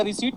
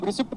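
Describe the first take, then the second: First: "रिसीट" with long ee, no p; silent p. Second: "रिसिप्ट" with the p sounded; pronounced p. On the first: Teacher asking whether pronunciation matters, silent p. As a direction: say "रिसीट" ending in a plain t. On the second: Teacher asking whether pronunciation matters, sounded p. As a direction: say "रिसिप्ट" ending in p-t. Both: Shown as a demonstration. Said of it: "हम रिसिप्ट बोलें या रिसीट बोलें".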